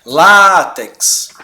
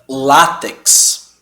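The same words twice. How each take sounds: First: Látex repeated louder, stress on LÁ. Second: Látex, weight on the first syllable lá; stress on lá. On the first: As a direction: say Látex again with a stronger LÁ. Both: Shown as a demonstration. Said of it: "A gente pronuncia".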